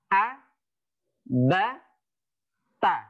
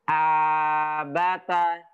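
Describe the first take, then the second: First: Each syllable is short, with pauses between them. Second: The syllables run together with long drawn-out vowels. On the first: The speaker calls it right. "lebih baik anak itu membacanya dipisah-pisah daripada dipanjangkan. Seperti ini" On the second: The speaker calls it wrong. "daripada membacanya dengan panjang"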